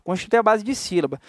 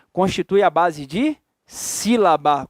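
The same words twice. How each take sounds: First: Said in the usual way. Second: Slow prompt, pausing before "sílaba" and splitting it up; "sílaba" spelled out syllable by syllable after a pause; teacher's slow prompt, "sílaba" in separate beats; drawn-out syllables. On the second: Shown as a demonstration. Teacher prompts class, drawing out syllables.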